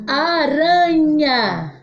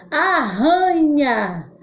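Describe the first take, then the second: First: "Aranha" stretched out with a tapped R; very slow "Aranha", one light tongue tap on R; weak R. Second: "Arranha" stretched out with RR like H; very slow "Arranha", breathy h for RR; strong R. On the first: Teacher contrasts sounds for pupils, drawn-out "Aranha" with tapped R. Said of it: "Som fraco". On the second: Teacher contrasts sounds for pupils, drawn-out "Arranha" with h-like RR. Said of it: "Som forte". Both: Shown as a demonstration.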